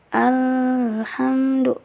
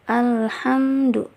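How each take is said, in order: First: The L sound is held for a long time. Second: The L sound is clear but said normally. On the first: The speaker calls it wrong. "itu juga salah karena itu ditahan" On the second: The speaker calls it right. "seperti biasa saja, penting lamnya itu jelas"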